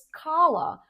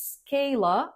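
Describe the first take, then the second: First: The first vowel does not sound like scale. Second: The first vowel sounds like scale. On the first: The speaker calls it right. "it's pronounced as Scala" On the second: The speaker calls it wrong. "not pronounced as Scala"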